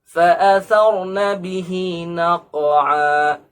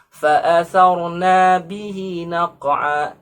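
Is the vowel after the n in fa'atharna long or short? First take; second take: short; long. First: The vowel after the n is short. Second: The vowel after the n is long. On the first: The verb refers to feminine subjects, the war horses. The speaker calls it right. "yang seharusnya nunnya adalah pendek, tidak ada imbuhan alifnya" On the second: The meaning of the verse is changed. The speaker calls it wrong. "membaca dengan panjang. ... Nunnya diimbuhkan dengan alif. Ini tidak boleh"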